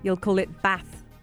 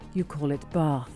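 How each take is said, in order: First: It is said in a northern English accent. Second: It is said in a southern English accent.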